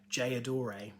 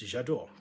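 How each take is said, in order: First: It begins with an English-style sound, not French. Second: It begins with a French-style sound, blended together. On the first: The speaker calls it wrong. "which I think is absolutely not how you say it" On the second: The speaker calls it right. "It's J'adore"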